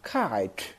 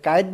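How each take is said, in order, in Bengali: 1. প্রথম k ধ্বনিতে একটি শ্বাসের ঝলক আছে। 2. প্রথম k ধ্বনিতে কোনো শ্বাসের ঝলক নেই। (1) "ইংৰাজীত খ" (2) "আমি আচলতে কাইট বুলি কোৱাটো ভুল"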